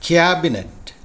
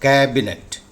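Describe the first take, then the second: First: The first syllable has a 'kya' glide vowel. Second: The first syllable has an open 'æ' vowel. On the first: The speaker calls it wrong. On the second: The speaker calls it right.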